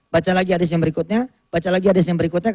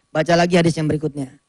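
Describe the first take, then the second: First: Fast, rattling through the next hadith; fast back-to-back reading turns; quick rotating reading. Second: Said in the usual way. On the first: Shown as a demonstration. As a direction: speed it up as each turn rolls on. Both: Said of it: "Boleh saya contohkan cara bacanya".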